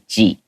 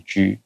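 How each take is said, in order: First: The letter G ends in a clear long ee vowel. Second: The letter G lacks a clear long ee vowel. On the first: "有个更 G E E 的声音" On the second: "we tend not to say G"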